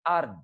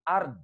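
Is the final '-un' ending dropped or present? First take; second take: dropped; dropped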